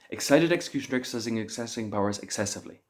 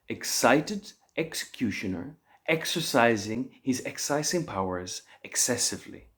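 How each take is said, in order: First: It is said as fast as possible. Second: It is said at a slow, careful pace.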